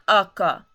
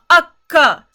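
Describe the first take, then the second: First: The k sound in the middle is short. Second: The k sound in the middle is long. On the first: The speaker calls it wrong. "We don't want akka" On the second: The speaker calls it right. "We want akka. So to get that extra ka"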